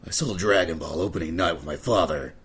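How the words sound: It is read in a Solid Snake impression.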